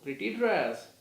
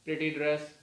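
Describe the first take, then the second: First: It sounds dismissive and negative. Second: It sounds flat and emotionless, like a robot. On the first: It is a critical remark, not praise. "so that is a comment. That can be a negative" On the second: No feeling is attached to the words. "so that is a kind of a robot thing"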